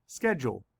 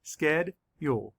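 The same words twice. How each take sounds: First: Said in the usual way. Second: Slow, each syllable pulled apart. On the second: Shown as a demonstration. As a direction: sound out each syllable slowly. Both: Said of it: "Let's count the sch-, syllables".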